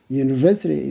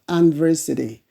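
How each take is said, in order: First: The word begins with a 'y' sound. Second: The word begins with a plain vowel sound. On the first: The speaker calls it right. "University is ye sound" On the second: The speaker calls it wrong. "not university"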